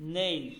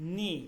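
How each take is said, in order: First: The vowel is a gliding ey diphthong. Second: The vowel is a plain i sound. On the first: The speaker calls it right. "উচ্চারণটা হবে" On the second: The speaker calls it wrong. "এটা হওয়ার কথা কি নি ... কিন্তু ভুল"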